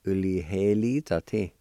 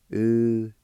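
First: U-li-he-li-za-ti run together, falling at the end; Cherokee word, repeat. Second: U-li-he-li-za-ti, syllables separated, bold and louder; Cherokee word, first model. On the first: Teacher repeating U-li-he-li-za-ti for the class. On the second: Teacher to students, boldly modelling U-li-he-li-za-ti. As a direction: call out U-li-he-li-za-ti syllable by syllable. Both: Shown as a demonstration. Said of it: "it's pronounced like this".

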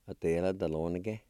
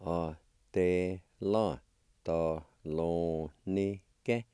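First: Said in the usual way. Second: Both parts in slow separate syllables; teacher's careful word model. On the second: Shown as a demonstration. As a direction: sound out "a, te, la, da, lo, ni, ke" with pauses. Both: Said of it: "And together".

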